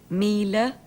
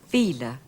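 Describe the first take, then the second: First: The word begins with a plain m sound. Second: The word begins with a softened v sound.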